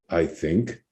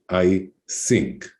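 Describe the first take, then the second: First: It is said with a standard th sound. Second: It is said with an Israeli accent, th as s.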